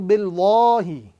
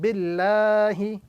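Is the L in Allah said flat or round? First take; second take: round; flat. First: The L sound is heavy, full and rounded. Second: The L sound is light, thin and flat. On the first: The speaker calls it wrong. "This is the wrong pronunciation" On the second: The speaker calls it right. "the word Allah with a flat sound"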